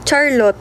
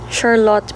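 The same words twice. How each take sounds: First: The name begins with a hard ch sound. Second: The name begins with a soft sh sound. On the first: This is the speaker's own everyday way of saying the name. "Actually, ano lang, Charlotte, ganun lang" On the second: This way is meant to sound more social and polished. "Naging S H, ganun. Charlotte, para ano daw, social"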